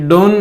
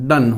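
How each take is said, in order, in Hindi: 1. स्वर 'go' में 'oh' जैसा बोला जाता है। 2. स्वर 'cup' में 'u' जैसा बोला जाता है। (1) "ये डोन नहीं होता है" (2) "डन होता है"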